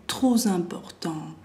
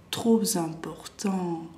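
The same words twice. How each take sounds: The two takes are said the same way.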